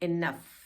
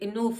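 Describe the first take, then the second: First: The second vowel is a short uh sound. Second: The second vowel is a long oo sound. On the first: The speaker calls it right. "ये होगा इनफ" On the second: The speaker calls it wrong. "ये इनूफ नहीं होगा"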